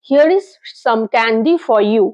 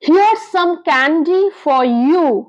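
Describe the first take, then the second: First: 'Here is' is said as two full words. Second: 'Here is' is contracted into one syllable.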